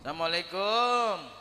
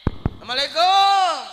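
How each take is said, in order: First: The greeting is said at a normal volume. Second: The greeting is said louder, with a raised voice.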